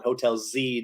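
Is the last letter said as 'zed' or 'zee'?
zee. The letter is said 'zee', American style.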